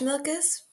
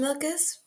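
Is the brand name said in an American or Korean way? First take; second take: American; American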